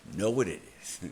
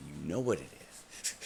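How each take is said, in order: First: Louder and higher, insisting; emphatic repeat. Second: Said in the usual way. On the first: Retold or imitated. Retold rant at karma, louder insistent repeat. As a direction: hit it harder the second time.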